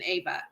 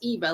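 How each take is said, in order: First: The name begins with an 'ah' vowel. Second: The name begins with an 'ee' vowel. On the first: The speaker calls it wrong. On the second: The speaker calls it right.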